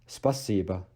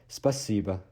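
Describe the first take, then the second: Both takes have the same delivery.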